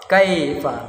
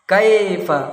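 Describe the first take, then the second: No difference in how they are said.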